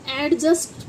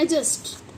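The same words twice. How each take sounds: First: „एडजस्ट” as AD-just; wrong, d sounded. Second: „एडजस्ट” as A-just, no d; silent d. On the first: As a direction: keep a separate d before the j in एडजस्ट. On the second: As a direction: drop the d in एडजस्ट, vowel straight into j. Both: Shown as a demonstration. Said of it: "जबकि होता है एडजस्ट".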